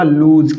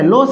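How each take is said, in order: First: It has a long 'oo' vowel and ends in 'z'. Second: It has a short 'o' vowel and ends in 's'. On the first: The speaker calls it right. "इसका भी उच्चारण होगा लूज" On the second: The speaker calls it wrong. "नहीं साथियों"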